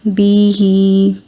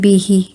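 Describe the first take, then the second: First: The syllables are drawn out with extra time. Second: The syllables are read quickly with equal time. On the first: The speaker calls it wrong. "आपने इसको ऐसे नहीं पढ़ना" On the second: The speaker calls it right. "फ़ौरन से पढ़ना है। बस इतना टाइम देना है।"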